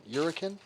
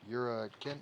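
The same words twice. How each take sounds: First: High, loud delighted question; excited repeat. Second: Said in the usual way. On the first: Real, not acted. Streamer to chat loving the made-up accent name, loud high question. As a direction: throw the word out again, much higher and louder.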